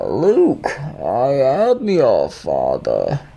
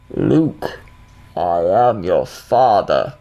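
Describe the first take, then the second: First: It is said in a Bane impression. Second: It is said in a Darth Vader impression.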